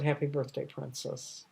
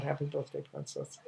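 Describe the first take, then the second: First: Said in the usual way. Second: Trailing into a hushed whisper; tender whispered repeat of the father's greeting; soft whispered echo. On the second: Retold or imitated. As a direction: breathe it out, almost voiceless. Father's greeting echoed softly.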